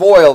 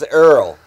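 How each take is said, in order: First: It is said in a plain accent. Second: It is said in a Texas accent. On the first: "Instead of oil" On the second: "they use Earl"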